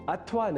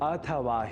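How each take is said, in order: First: It is pronounced the Hindi way, with vowels reduced. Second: It is pronounced the Sanskrit way, with every vowel full. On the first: The speaker calls it wrong. "Hindi या अन्य प्रादेशिक भाषाओं से कुप्रभावित होकर ... अशुद्ध उच्चारण" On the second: The speaker calls it right. "यह शुद्ध उच्चारण"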